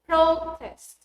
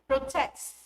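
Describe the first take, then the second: First: The stress is on the first syllable. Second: The stress is on the second syllable. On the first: It is used as a noun. "a noun" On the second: It is used as a verb. "a verb"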